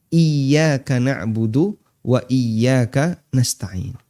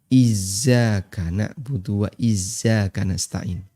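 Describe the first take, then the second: First: The middle consonant is a y sound. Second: The middle consonant is a z sound. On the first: The speaker calls it right. "Tekan Y" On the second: The speaker calls it wrong. "Lidahnya orang Jawa ... Z dengan Y itu tertukar"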